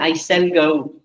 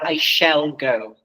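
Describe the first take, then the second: First: The sh sound in shall is altered. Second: The sh sound in shall is clear. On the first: The speaker calls it wrong. "I shall go instead of" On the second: The speaker calls it right. "instead of I shall go"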